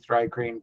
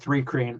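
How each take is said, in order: First: The first syllable sounds like 'thry'. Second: The first syllable sounds like 'three'. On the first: The speaker calls it right. "It would be thry-creen" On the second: The speaker calls it wrong. "I've heard it said three creen"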